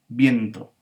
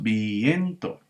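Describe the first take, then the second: First: The vowels i and e join in one syllable. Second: The vowels i and e fall in separate syllables. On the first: The speaker calls it right. "sino es viento" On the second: The speaker calls it wrong. "No decimos viento"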